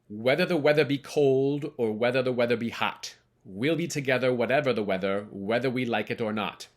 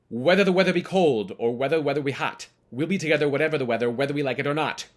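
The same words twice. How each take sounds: First: It is said at a slower pace. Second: It is said at a faster pace.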